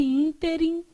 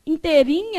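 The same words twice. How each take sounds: First: "ínterim" stressed on ÍN, weak ending; stress on first syllable. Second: "Interim" stressed on the last syllable, -RIM; stress on final syllable. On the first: Teacher correcting the class, first-syllable stress. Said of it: "Então, nesse ínterim". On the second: Teacher showing the wrong reading, final-syllable stress. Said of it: "é o moço do ditongo". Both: Shown as a demonstration.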